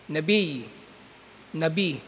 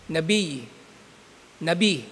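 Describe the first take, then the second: No difference in how they are said.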